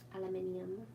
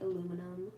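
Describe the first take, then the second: First: It is said the British way, five syllables. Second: It is said the American way, four syllables. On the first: "in England or Britain, they say like" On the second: "we just say"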